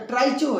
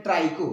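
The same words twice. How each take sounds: First: "ट्राइचो" with a CH sound, trai-cho; the mistaken trai-cho reading of "ट्राइचो"; misreading. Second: "ट्राइको" with a hard K, trai-ko; the proper trai-ko reading of "ट्राइको"; correct pronunciation. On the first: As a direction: read "ट्राइचो" with ch as in chair. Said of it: "अब यहाँ इसको ट्राइचो मत पढ़िएगा". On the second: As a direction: read "ट्राइको" with k, not ch. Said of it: "लेकिन कहते हैं ट्राइको". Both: Shown as a demonstration.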